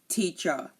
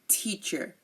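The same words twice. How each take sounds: First: The final R sound is dropped entirely. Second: The final R sound is clearly pronounced. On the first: "They do not pronounce the R" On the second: "in American English, what I speak, we say"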